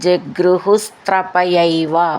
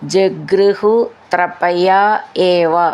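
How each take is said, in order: First: The three words are joined into one. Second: The three words are said separately.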